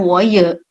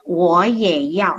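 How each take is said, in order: First: Wo ye with ye read like the Indonesian e in bebek; wrong reading of ye. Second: Wo ye yao said slowly, ye as a clear "yeh"; correct Mandarin ye. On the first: Teacher demonstrates the wrong ye students use, slightly louder. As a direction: show the mistake students make. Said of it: "Jadi bukan". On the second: Teacher models the correct ye for Indonesian students, slow and clear. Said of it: "Jadi kita baca Y". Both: Shown as a demonstration.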